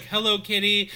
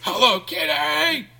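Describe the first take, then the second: First: Lightly imitated, somewhat high greeting; half-hearted go at a big line; tame first attempt. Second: High, loud, drawn-out squeal; hammed-up scream with the last word stretched out; mock scream. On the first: Sorority girl obeying the step leader, tame first try. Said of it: "she's like". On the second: Sorority girl releasing her inner animal, mock scream.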